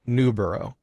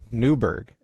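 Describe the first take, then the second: First: The name ends in a longer 'borough' sound. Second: The name ends in a short 'burg' sound. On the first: This is the original British form of the name. "instead of Newborough" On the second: This is the later American form of the name. "hundreds of years of American idiocracy has now called it Newburgh"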